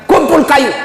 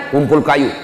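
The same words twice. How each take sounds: First: Commanding call, higher and louder; raised command. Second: Said in the usual way. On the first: Acted. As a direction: call out the order firmly. Prophet's command in retold story.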